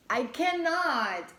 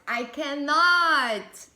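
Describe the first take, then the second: First: High, loud and slow, overwhelmed; a stretched, giddy I cannot. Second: Higher, louder and very slow disbelief; more overwhelmed. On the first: To viewers, overwhelmed by their reading, high and slow. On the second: To viewers, overwhelmed by their reading, even louder and slower. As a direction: let it swell into a giddy cry. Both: Real, not acted.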